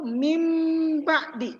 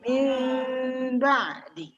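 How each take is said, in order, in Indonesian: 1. Ada m penuh dengan bibir tertutup sebelum ba'di. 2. Ada m lembut dengan bibir sedikit terbuka sebelum ba'di. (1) "Kalau sempurna tuh mim ba'di, itu sempurna" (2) "M-nya itu tidak sempurna. Artinya ada celah di antara bibir atas dan juga di bibir bawah"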